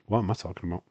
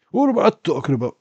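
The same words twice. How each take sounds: First: Said in the usual way. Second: High, fast, louder silly voice on "What am I talking about"; mock voice. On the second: Streamer mocking his own mistake in a silly squeaky voice.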